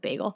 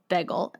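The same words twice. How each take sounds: First: It is said in a general accent. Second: It is said in a Philadelphia accent. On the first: "instead of bagel" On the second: "he says bagel instead of"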